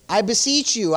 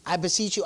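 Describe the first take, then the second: First: Firm, forceful appeal; emphatic beseeching. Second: Said in the usual way. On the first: Shown as a demonstration. Preacher reads the apostle's plea to brethren, emphatically. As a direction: press the plea home with weight. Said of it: "That's emphatic, right?".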